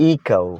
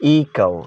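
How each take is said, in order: The two takes are said the same way.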